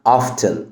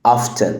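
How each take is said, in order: First: The T sound is pronounced. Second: The same.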